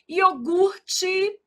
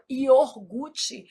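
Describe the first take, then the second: First: The R sound follows the U vowel. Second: The R sound follows the O vowel. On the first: The speaker calls it right. "o R é aqui" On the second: The speaker calls it wrong. "a gente às vezes des- desloca esse R e fala iogurte"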